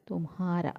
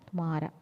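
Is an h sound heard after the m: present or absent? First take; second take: present; absent. First: An h sound is heard after the m. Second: No h sound is heard after the m. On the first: The speaker calls it wrong. "ഉച്ചരിക്കുന്നത് തുംഹാര അല്ലേ" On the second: The speaker calls it right. "ഉച്ചരിക്കുമ്പോൾ ഹ silent"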